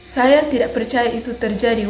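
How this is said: The pitch is light, rising and falling. "senang, menggunakan nada ringan naik turun"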